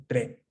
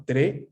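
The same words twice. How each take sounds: First: "tre" with an open Italian è, as in "bet". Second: "tre" with a closer Spanish-style e; closed e. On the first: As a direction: open the mouth wider on the e of "tre". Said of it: "Más abierta". ("tre" con la e abierta) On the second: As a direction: say "tre" with the e less open. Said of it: "Entonces no sería tre". ("tre" con la e más cerrada) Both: Shown as a demonstration.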